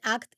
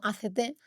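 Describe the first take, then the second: First: It is said as one word, like "act." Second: It is spelled out letter by letter. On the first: The speaker calls it right. "se pronuncia efectivamente A C T" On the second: The speaker calls it wrong. "y no A C T"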